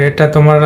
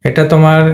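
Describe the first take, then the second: Both takes have the same delivery.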